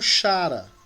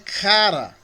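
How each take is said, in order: First: The word begins with a breathy ch sound. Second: The word begins with a hard k sound. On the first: "muitos pronunciam como chara" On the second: "Mas é cara"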